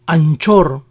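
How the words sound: It is said with a Spanish pronunciation. "We pronounced these brands as"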